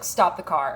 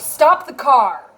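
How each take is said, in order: First: Said in the usual way. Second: Loud, drawn-out command, each word leaned on; shouted order. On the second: Retold or imitated. Instructor orders driver who hit the pole to stop, shouting. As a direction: imitate an instructor yelling to halt, slowly and forcefully.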